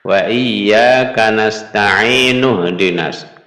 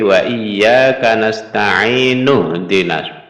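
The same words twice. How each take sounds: First: The glottal 'i' sound before 'dina' is dropped. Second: The glottal 'i' sound before 'dina' is dropped.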